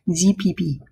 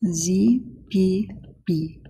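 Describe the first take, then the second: First: Said in the usual way. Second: Slow, drawn-out French accent. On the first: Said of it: "I like to do a French accent for some reason when I say that". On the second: Shown as a demonstration. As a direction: say the letters like a Frenchman. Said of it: "I like to do a French accent".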